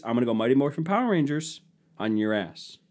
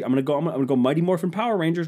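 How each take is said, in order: First: Said in the usual way. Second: Fast, higher, rushed "Mighty Morphin Power Rangers"; hyped up. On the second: Real, not acted. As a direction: fire it off like a battle cry, racing the words. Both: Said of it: "I'm gonna change it".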